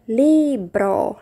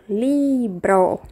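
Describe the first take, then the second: The two takes are said the same way.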